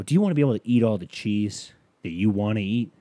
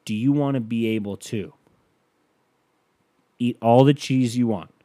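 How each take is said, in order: First: Upbeat ad pitch to camera. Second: Commercial voice. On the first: Pretend. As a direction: turn to camera and sell it. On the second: Shown as a demonstration. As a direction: sell the cheese dream to camera. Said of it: "this is what it would sound like".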